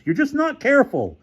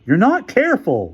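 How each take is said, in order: First: Very high-pitched furious repeat; exasperated rage in a high register; raging. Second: High, loud scolding; furious reprimand, pitched up; raging. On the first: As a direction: hammer the scolding home, higher-pitched. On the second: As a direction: rage at someone's carelessness. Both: Acted. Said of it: "Larry raged".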